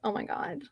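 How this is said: The exclamation sounds shy and embarrassed. The romance feels innocent and embarrassing.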